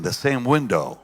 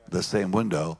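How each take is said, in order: First: "same" pushed up high and louder, falling off; emphatic "same", then let "window" drop; stress on same. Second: Said in the usual way. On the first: Real, not acted. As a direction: lean hard on "same" in "the same window". Repeats phrase, first time emphatic.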